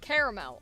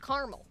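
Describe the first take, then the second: First: The word is said with the middle 'a' sound. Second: The word is said without the middle 'a' sound. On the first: The speaker calls it right. "you can say caramel" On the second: The speaker calls it wrong. "It's not caramel. There's an A"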